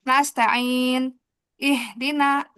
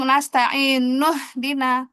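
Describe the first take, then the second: First: A break, then an added vowel opens 'ihdina'. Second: The words run together with no added vowel. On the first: The reading stops and restarts at the second word. "Dibantu hamzah wasal" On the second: The words are read as one connected phrase. "Kalau disambung"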